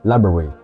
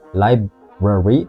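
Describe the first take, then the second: First: One sound in the word is dropped. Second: Every sound in the word is pronounced. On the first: The speaker calls it right. "menghilangkan satu suara" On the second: The speaker calls it wrong. "bukan library"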